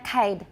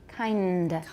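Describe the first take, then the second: First: The n sound before the d is missing. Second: The n sound before the d is clear. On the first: The speaker calls it wrong. "Not kind" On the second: The speaker calls it right. "舌尖要点上去，然后有鼻音。"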